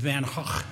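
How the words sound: The name is said in a Dutch way. "he's Dutch. And the correct pronunciation is Van Gogh"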